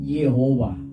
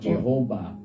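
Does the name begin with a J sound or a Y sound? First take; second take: Y sound; J sound. First: The name begins with a Y sound. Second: The name begins with a J sound. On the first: This is the original pronunciation. "hindi J yung nandoon na. That is Yehovah" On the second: This is the customary adopted pronunciation. "nakasanayan na, inadak na lang nila"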